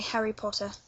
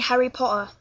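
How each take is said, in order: First: The T in Potter is clearly pronounced. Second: The T in Potter is dropped. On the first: "I say Harry Potter" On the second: "if you want that more Manchester uh, accent"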